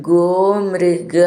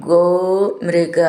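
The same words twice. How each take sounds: No difference in how they are said.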